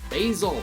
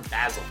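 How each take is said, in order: First: Basil is said with an American pronunciation. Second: Basil is said with a British pronunciation. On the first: The speaker calls it right. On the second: The speaker calls it wrong.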